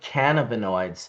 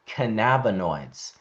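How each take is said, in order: First: The start of the word sounds like 'cannabis'. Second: The start of the word sounds unlike 'cannabis'. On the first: It keeps the word tied to cannabis. The speaker calls it right. "I say cannabinoids" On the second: It distances the word from cannabis. The speaker calls it wrong. "everyone's saying cannabinoids"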